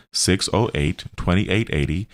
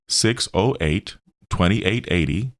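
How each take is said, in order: Both takes have the same delivery.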